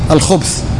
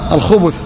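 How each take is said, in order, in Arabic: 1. الباء تليها الثاء مباشرة. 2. تأتي الضمة بين الباء والثاء. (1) "بتسكين الباء" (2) "وبالضم"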